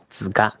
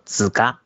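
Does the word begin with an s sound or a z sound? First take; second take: z sound; z sound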